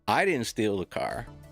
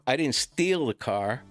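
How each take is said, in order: First: The stress is on "I". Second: The stress is on "steal".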